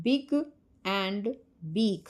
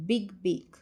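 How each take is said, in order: First: Big, and, beak spoken one at a time, each b sharply hit; stress on the b sound. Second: Said in the usual way. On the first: Shown as a demonstration. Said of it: "begin with the same ब sound". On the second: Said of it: "The words big and beak begin with the same ब sound".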